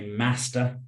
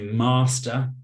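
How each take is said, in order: First: It is said in a northern English accent. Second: It is said in a southern English accent. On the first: "I'm from the north of England, so I say master" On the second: "People from the south might say master"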